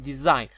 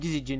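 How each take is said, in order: First: No g sound is pronounced in the middle. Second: A g sound is pronounced in the middle. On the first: The speaker calls it right. "الجي ما تلفظ" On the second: The speaker calls it wrong. "ما نقول ديزيجن"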